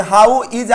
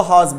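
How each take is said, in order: First: Said in the usual way. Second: "हॉज" as one syllable; fuse how and is into "हॉज"; contracted how's. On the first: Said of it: "उसको हॉज बोलेंगे". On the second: Shown as a demonstration. Teacher shows what to say for how is, contracted "हॉज". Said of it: "तो उसको हॉज बोलेंगे".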